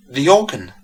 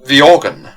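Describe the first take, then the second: First: Startled gasp of surprise. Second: Loud startled exclamation; loudly stammered in shock. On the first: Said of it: "gasped Mistress Hurley". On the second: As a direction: blurt it out, stunned. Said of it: "stammered the squire". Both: A narrator's reading.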